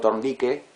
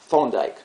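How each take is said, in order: First: The name is said fully Spanish-style, not English. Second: The name is said fully English-style, with English th. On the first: It sounds bad. The speaker calls it wrong. "si digo Thorndike, queda mal también" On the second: It sounds like showing off. The speaker calls it right. "en este caso sería Thorndike ... me estoy mandando la parte"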